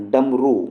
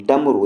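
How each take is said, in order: First: डमरू slowed, with a stretched "rooo" ending; long final U. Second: डमरू with a quick "ru" ending; short final U. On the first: Teacher contrasting spellings, long U ending in डमरू. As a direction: draw out the last vowel of डमरू. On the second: Teacher showing one spelling, short U ending in डमरू. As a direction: keep the last vowel of डमरू short. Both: Shown as a demonstration. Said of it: "नहीं होता, डमरू होता है".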